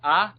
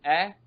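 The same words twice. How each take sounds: First: "A" said as the open vowel of "under"; isolated "A", sounded as in "under". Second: "A" said as the short vowel of "at"; isolated "A", sounded as in "at". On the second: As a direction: say "A" like the start of "at". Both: Shown as a demonstration.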